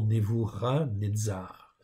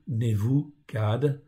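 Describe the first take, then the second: First: The name is said with its original Hebrew sounds. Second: The name is said with familiar, simplified sounds. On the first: This is how the name is normally pronounced. "on prononce normalement" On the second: This form is easier for everyone to understand. "pour simplifier, pour que tout le monde comprenne"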